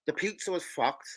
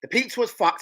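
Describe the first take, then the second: First: Slow deadpan. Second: Louder exasperated repeat. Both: Real, not acted.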